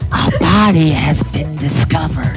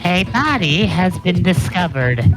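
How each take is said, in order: First: It is heavily whispered, very breathy. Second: It is only lightly whispered.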